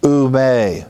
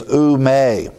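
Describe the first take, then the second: First: "ou me" repeated at normal pace as "oo may"; Greek ou me. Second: "ou me" said slowly, each Greek syllable drawn out. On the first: Repeating the Greek phrase "ou me" for the class, normal pace. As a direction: say "ou me" again, smoothly. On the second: Teaching the Greek phrase "ou me" to the class, said slowly. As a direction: spell out "ou me" slowly as "oo may". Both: Shown as a demonstration. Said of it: "through the phrase".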